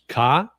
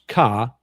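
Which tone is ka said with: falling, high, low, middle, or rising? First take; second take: high; low. First: The word is said on a high pitch. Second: The word is said on a low pitch. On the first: "which is up, uh, which is high tone" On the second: "which is low tone"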